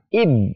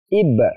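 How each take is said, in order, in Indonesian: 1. Konsonan terakhir ditekan dan ditahan. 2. Konsonan terakhir dilepas dengan sedikit pantulan. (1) "tidak boleh ditahan, ditekan" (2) "cara bacanya ib"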